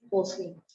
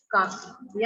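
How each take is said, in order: First: Teacher saying कॉफी with a rounded ओ, "kofi"; कॉफी with the o sound. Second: Teacher saying काफी with a plain आ, "kaafi"; काफी without the o. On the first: Teacher showing students कॉफी with the ओ sound, clearly rounded. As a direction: say कॉफी with the open ओ vowel of English coffee. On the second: Teacher showing students काफी without the ओ, a plain आ. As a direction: drop the ओ and say काफी with an open आ. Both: Shown as a demonstration. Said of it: "कॉफी में से ओ की मात्रा ये हटा दें".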